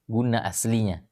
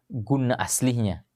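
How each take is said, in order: No difference in how they are said.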